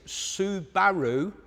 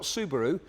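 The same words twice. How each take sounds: First: It uses the officially preferred pronunciation. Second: It uses the customary local pronunciation. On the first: This is how the name is supposed to be said. The speaker calls it right. "what we should be saying is Subaru" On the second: This is how people usually say the name. The speaker calls it wrong. "not Subaru"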